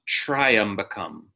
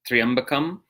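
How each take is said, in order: First: The first syllable sounds like "try". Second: The first syllable sounds like "tree". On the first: The speaker calls it wrong. "not Triambakam, not try" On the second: The speaker calls it right. "the correct pronunciation, like a tree"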